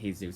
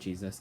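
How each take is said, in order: First: The name begins with an H sound. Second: The name begins with a J sound. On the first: The speaker calls it right. "I'm supposed to say Jesus" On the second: The speaker calls it wrong. "not Jesus"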